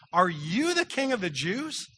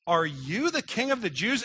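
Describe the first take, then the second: First: Slow question, you stressed. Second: Said in the usual way. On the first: Shown as a demonstration. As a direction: lean on you, slower than usual. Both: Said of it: "the word that's emphasized in that sentence is you".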